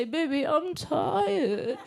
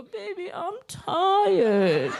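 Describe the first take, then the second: First: Put-on stretched-out, whiny baby voice; slow, drawn-out baby whine, a little higher; slow baby talk. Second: Put-on high, squeaky baby voice; high little-child whimper, laughing through it; baby talk. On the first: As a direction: drag it out like a sleepy toddler. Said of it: "what happens is you say". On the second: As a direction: whine it like a toddler wanting comfort. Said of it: "when baby talk starts".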